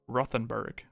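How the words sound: It is said with an American accent. "I do want to keep up my American accent"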